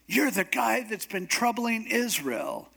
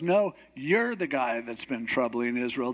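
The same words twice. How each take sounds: First: High-pitched accusation as King Ahab; accusing Ahab. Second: Lower-pitched retort, "you're" stressed; Elijah turning blame back. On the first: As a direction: voice a king pointing blame, pitched up. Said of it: "So Ahab comes and says". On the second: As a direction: stress on "you're", then low and firm. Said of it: "And Elijah goes". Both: Retold or imitated.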